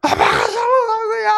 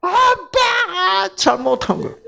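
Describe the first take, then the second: First: Put-on whiny child. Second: Put-on high, slow whining child's blame; whiny child. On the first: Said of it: "때리는 거야". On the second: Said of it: "지가 그냥 아빠가 잘못한 거야". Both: Daughter blaming her father while hitting him. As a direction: whine it like a pouting little girl.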